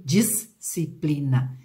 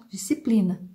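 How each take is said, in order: First: DISCIPLINA in separate syllables, dis-ci-pli-na; split between S and C. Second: Said in the usual way. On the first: Shown as a demonstration. Teacher voicing a child's over-careful reading, split syllables. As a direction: break disciplina after a held "dis". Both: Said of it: "Pronuncia a palavra normalmente".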